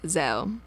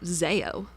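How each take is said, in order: First: The first syllable rhymes with 'Zed'. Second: The first syllable rhymes with 'Zaid'. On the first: The speaker calls it right. "similarly to how you pronounce Zed" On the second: The speaker calls it wrong. "you don't say it like Zaid, do you? ... So why say it like Zeo?"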